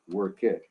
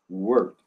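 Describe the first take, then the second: First: The ending is pronounced as an extra syllable. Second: The ending adds no extra syllable. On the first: The speaker calls it wrong. "You don't say work, work it" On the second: The speaker calls it right. "you say work, worked"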